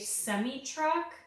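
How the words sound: It is said the Canadian way.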